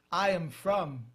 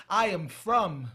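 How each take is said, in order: Both takes have the same delivery.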